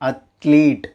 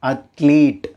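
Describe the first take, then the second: First: The second vowel is a long 'ee'. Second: The same.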